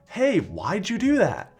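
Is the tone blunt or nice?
nice. It is said in a nice tone.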